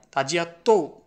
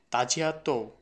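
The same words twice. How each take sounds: First: তো punched louder and higher; emphatic তো. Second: Said in the usual way. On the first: Shown as a demonstration. Teacher showing students how তো adds emphasis, stressed. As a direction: land hard on তো to show the emphasis. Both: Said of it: "এই তৌটা দ্বারা emphasise করা হয়েছে".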